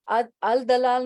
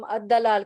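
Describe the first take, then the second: First: The article's l sound is clearly pronounced. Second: The l merges into a doubled d sound. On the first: The speaker calls it wrong. "नहीं कह रहे हैं हम" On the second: The speaker calls it right. "कह रहे हैं, तो ये शमसी है"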